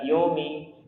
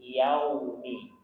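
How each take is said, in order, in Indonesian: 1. Vokal pertama adalah bunyi 'o' bulat. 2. Vokal pertama adalah bunyi 'au' terbuka. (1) "Bukan yomi" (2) "namanya fathah harus dibuka"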